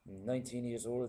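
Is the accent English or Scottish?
Scottish. It is said in a Scottish accent.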